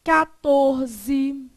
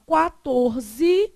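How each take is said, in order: First: "Quatorze" said as "catorze"; second variant. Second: "quatorze" with a KWA onset; first variant. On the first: Teacher showing the other form, "Quatorze" with plain KA. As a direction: drop the W sound in "Quatorze", starting with KA. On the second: Teacher showing one accepted form, "quatorze" with KWA. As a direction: sound the U in "quatorze", slowly. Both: Shown as a demonstration. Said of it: "Você pode falar".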